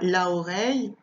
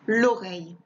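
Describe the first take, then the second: First: The article's vowel is kept before the noun. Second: The article's vowel is dropped before the noun. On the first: The speaker calls it wrong. "je dis pas" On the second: The speaker calls it right. "je dis"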